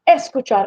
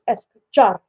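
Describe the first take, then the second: First: The stress is on the first syllable. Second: The stress is on the last syllable. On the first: The speaker calls it wrong. "it's not es, escuchar" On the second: The speaker calls it right. "the ar on the end"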